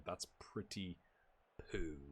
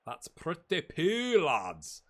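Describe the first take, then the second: First: Said in the usual way. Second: "That's pretty poo" stretched slowly, "poo" long and falling; slow, sing-song "That's pretty poo"; drawn-out poo. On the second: Shown as a demonstration. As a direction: savour the word "poo", slowly.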